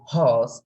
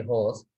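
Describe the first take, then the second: First: "horse" as a long open haws; British pronunciation, imitated. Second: "horse" with a plain o, like hos; Sri Lankan pronunciation. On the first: Teacher showing class the British way, British pronunciation. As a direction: draw out the vowel in "horse", no r. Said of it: "British say horse". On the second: Teacher showing class the local way, Sri Lankan pronunciation. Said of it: "we say horse". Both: Shown as a demonstration.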